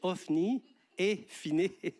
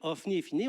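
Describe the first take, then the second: First: The names are pronounced carefully and distinctly. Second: The names are pronounced loosely, sounding comical. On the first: The speaker calls it right. "on veut dire Ophni et Phiné" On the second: The speaker calls it wrong. "on ne veut pas dire Ophni et Phiné"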